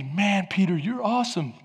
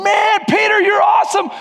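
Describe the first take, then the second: First: Said in the usual way. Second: High, loud hyped-up shout; crowd cheering. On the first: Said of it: "Or maybe". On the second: Acted. Twelve disciples cheering Peter on from the boat, high excited shout. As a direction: yell it like an over-excited crowd. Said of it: "That's the twelve going".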